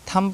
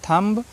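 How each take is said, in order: First: The word ends without any b sound. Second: The word ends with an audible b sound. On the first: The speaker calls it right. "थम पढ़ेंगे" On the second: The speaker calls it wrong. "नहीं पढ़ना है"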